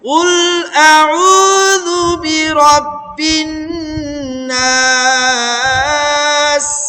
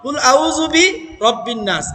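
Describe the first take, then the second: First: The break falls after a'udhu. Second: The break falls after bi. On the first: The speaker calls it right. "আউযু পর্যন্ত একটা, বি রব্বিন থেকে আবার আলাদা" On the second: The speaker calls it wrong. "অনেকেই আমরা এইভাবে পড়ি"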